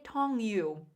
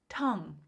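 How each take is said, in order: First: It ends with an extra 'you' syllable. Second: It ends cleanly after the 'ng' sound. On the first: The speaker calls it wrong. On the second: The speaker calls it right.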